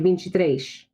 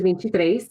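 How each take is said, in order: First: It is said in a Carioca accent, pushed S. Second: The S sounds are said plainly.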